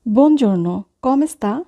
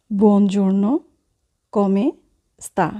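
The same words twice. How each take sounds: First: Said in the usual way. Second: "Buongiorno", "come", "sta?" each set apart by long pauses; slow dictation with pauses; word by word. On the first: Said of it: "teacher models phrase". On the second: Shown as a demonstration. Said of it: "teacher repeats word by word".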